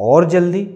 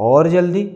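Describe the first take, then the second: No difference in how they are said.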